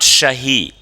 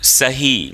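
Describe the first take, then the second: First: The word begins with an sh sound. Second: The word begins with a plain s sound. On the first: The speaker calls it wrong. "Not शही" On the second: The speaker calls it right. "सही, not शही"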